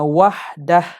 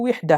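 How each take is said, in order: First: The first vowel is an 'a' sound. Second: The first vowel is an 'i' sound. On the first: This is the form heard from the Arabs. "al-fathu ialah baca dengan bagi fathah" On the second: This is the original form by analogy. "asalnya wihdah lah"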